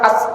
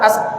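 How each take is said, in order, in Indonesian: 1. Bunyi s di akhir terputus dengan cepat. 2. Bunyi s di akhir panjangnya sedang. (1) "nggak bisa sin itu diucapkan dengan cepat" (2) "atau pertengahan as"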